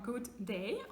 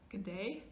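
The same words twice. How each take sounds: First: It is said in a standard accent. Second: It is said in an Australian accent.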